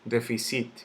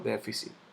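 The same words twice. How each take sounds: First: The stress falls after the first syllable. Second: The stress falls on the first syllable. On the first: The speaker calls it wrong. "yo no digo déficit" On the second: The speaker calls it right. "yo digo déficit"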